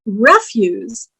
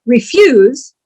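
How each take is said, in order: First: "refuse" slowly as REF-yoose, stress up front. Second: "refuse" slower, stressed on FUSE. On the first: Teacher showing the trash word, slow "refuse" as REF-yoose. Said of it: "But refuse". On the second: Teacher correcting herself, slow "refuse" as re-FUSE. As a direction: say "refuse" as the verb, slowly. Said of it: "oh, refuse". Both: Shown as a demonstration.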